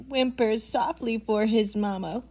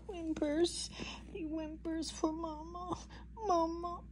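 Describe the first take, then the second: First: Said in the usual way. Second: Tiny, very soft mock whimper. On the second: Baby llama wants his mama, softly whimpering. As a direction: whimper it, barely voiced. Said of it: "he's whimpering".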